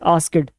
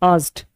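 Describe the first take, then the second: First: The ending is an extra syllable, like id. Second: The ending is a short t sound. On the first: The speaker calls it wrong. "आस्किड नहीं बोलेंगे इसे" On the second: The speaker calls it right. "डी में टी लगाएंगे"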